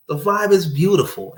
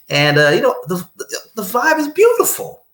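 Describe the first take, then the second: First: Said in the usual way. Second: High, sing-song and dreamy. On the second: Real, not acted. Describing the blissful day, in a dreamy high lilt. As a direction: float it up like bliss.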